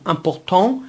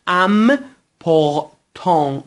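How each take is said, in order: First: Said in the usual way. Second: ام پورتان slowly split into syllables; French ام پورتان, pieces separated, nasal ending; syllable-by-syllable demo. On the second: Shown as a demonstration. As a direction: sound out ام پورتان part by part.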